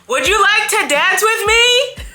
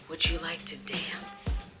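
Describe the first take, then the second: First: It is said much louder. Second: It is said at a normal, quieter volume.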